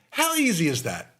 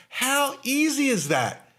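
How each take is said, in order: First: Said in the usual way. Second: Slow, higher, stretching easy; emphatic question. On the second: Shown as a demonstration. Host stressing easy to dental listeners. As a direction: lean on easy to show how simple it is. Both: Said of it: "It's simple".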